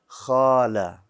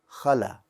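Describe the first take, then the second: First: The first vowel is held long. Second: The first vowel is kept short. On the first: "It's longer" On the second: "without the alif"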